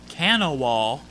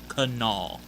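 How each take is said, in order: First: The name is sounded out as it is spelled. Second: The name is said in a form unlike its spelling. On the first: The speaker calls it wrong. "It might be spelled Kanawha. It's not pronounced that" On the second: The speaker calls it right. "It's pronounced Kanawha"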